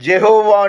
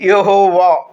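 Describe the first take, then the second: First: The name begins with a J sound. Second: The name begins with a Y sound. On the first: This is the English form of the name. "ఇంగ్లీష్లో జెహోవా అంటే జకారం" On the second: This is the Telugu form of the name. "తెలుగులో యెహోవా యకారం"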